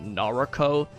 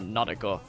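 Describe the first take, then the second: First: The name is said with an English accent. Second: The name is said with a Japanese accent. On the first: This is how the speaker long assumed it was said. "I thought it was like uh, pronounced" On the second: This is how the game itself says it. "how you saying it if you're like uh Japanese"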